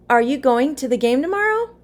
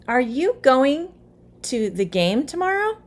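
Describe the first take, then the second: First: It is said a little faster. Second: It is said at a normal, moderate speed.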